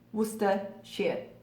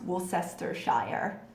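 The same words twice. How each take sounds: First: Some syllables are shortened, not said as spelled. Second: Every syllable is pronounced as it is spelled. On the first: It is how people in the country say it. The speaker calls it right. "but it's Worcester, Worcestershire" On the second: It is how people from outside the country say it. The speaker calls it wrong. "it looks like it should be pronounced Worcestershire, which is how I hear it mutilated most often"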